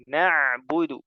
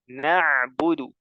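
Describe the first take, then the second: The two takes are said the same way.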